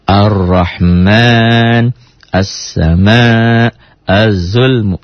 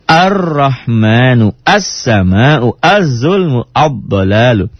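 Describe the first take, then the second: First: Very slow, even "Ar-Rahman, as-sama', az-zulmu" without punched doublings; fluent reader's "Ar-Rahman, as-sama', az-zulmu", doubled consonants held gently; smooth, no jolt. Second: Slow "Ar-Rahmanu, as-sama'u, az-zulmu, ad-dalalu" with a punch on each doubled consonant; snatch hard at r, s, z, d in "Ar-Rahmanu, as-sama'u, az-zulmu, ad-dalalu"; beginner's drill, jolting "Ar-Rahmanu, as-sama'u, az-zulmu, ad-dalalu" at each doubling; jolted doubled consonants.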